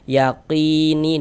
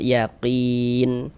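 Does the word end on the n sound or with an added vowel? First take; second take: added vowel; n sound. First: The word ends with a vowel after the n. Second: The word stops on the final n sound. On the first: The reader carries straight on to the next word. "kita wasolkan yaqini dan langsung kita sambung" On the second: The reader pauses at the end of the word. "tadi kita membacanya itu berwakaf di huruf nun"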